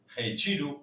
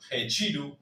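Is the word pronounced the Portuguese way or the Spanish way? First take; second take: Portuguese; Portuguese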